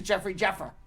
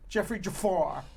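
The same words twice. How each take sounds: First: "Jeffer" said JEFF-er, stress on the first syllable; "Jeffer" with a short first e and weak ending; anglicized pronunciation. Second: Jafar said juh-FAR, stress on the second syllable; European pronunciation. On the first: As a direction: say "Jeffer" to rhyme with heifer. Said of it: "I look at it as". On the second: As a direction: say "Jafar" with a long, open last vowel. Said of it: "if you're European". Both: Shown as a demonstration.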